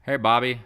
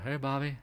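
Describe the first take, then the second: First: Loud, higher dim-witted call; clueless cartoon voice. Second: Clueless cartoon voice. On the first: Streamer imitating a cartoon character, loud and high. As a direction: shout it out clueless. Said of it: "He sounds like a complete". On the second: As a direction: say it dopey and light. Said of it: "He's like".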